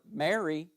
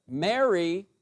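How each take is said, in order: First: Said in the usual way. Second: "Mary" said louder and higher with a rise; emphatic stress. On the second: Shown as a demonstration. Jesus calling Mary by name, emphatic rising call. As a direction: put emphatic weight on "Mary". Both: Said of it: "there's gotta be some emphatic stress there".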